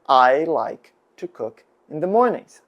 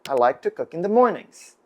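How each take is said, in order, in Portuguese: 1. Ela é falada em ritmo normal. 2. Ela é falada em ritmo rápido.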